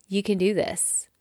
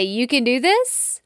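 First: Softer, sincere "you can do this"; sincere reassurance. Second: A pep-talk push with a lift at the end; boost. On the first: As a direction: say it quietly, as a personal promise. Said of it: "give you a little bit of a boost". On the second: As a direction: cheer them on with a rising "You can do this". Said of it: "give you a little bit of a boost and say". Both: Shown as a demonstration.

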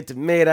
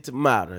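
First: Tomato with a long AY, to-MAY-to. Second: Tomato with an open AH, to-MAH-to. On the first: Host contrasting two sayings, tomato as to-MAY-to. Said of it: "You say tomato". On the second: Host answering the other saying, tomato as to-MAH-to. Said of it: "I say tomato". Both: Shown as a demonstration.

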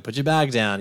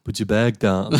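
First: Said in the usual way. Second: Put-on lightly done Schwarzenegger-style Austrian accent; mock Austrian-accented command; Arnie. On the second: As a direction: give the order with a hint of Austrian accent. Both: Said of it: "it's actually not Arnie this time".

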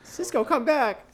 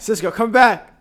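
First: High, slow coaxing call; sing-song call. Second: Loud, high call to the dog. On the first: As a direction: coax him back sweetly. Calling the dog again. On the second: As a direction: call him back across the room. Calling the dog back. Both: Real, not acted.

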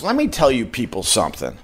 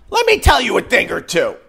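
First: Said in the usual way. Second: Emphatic repeat. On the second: Shown as a demonstration. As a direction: punch it up the second time, pitched up.

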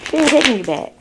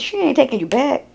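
First: "ain't" leaned on, the line falling to a firm close; firm final verdict. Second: "ain't" pushed up and rushed, a rising jab; emphatic verdict. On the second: Reader warning Gemini the girl won't return, quick rising emphasis. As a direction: fire off "she ain't taking you back" fast with the voice climbing on "ain't". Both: Real, not acted.

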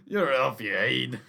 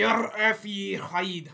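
First: Loud Scottish jeer; echoing his friend's Scottish slang, mock Scots. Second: Mock Scottish.

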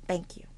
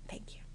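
First: Soft breathy thank you, almost whispered; whispered polite thanks; sweet whispered thanks. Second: Even softer whispered thank you; barely audible whispered thanks. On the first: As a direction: thank them sweetly and quietly. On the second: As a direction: fade the thanks to nothing. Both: Shown as a demonstration. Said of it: "calm, sweet voice".

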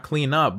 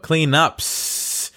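First: Said in the usual way. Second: Cleanups with the final s drawn out long; stress on plural of cleanups. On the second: Shown as a demonstration. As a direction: hold the hiss at the end of cleanups.

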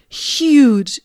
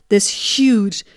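First: Huge pushed higher and louder; "huge" stretched and punched, higher and louder; stress on huge. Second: Said in the usual way. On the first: Real, not acted. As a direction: lean hard on "huge". Repeats huge for emphasis.

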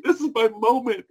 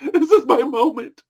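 First: Said in the usual way. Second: Says it again through a laugh, higher. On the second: Shown as a demonstration. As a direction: laugh through the words, savouring them.

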